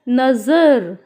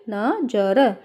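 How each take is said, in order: First: The middle consonant is a 'z' sound. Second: The middle consonant is a 'j' sound. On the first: "अगर हम यहाँ पे बिंदी लगा देते हैं जाके नीचे तो क्या होगा" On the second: "ये हो गया नजर"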